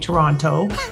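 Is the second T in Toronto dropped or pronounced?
pronounced. The second T sound is clearly pronounced. The speaker is not Canadian. "if you're not, you say Toronto ... if they pronounce that second T"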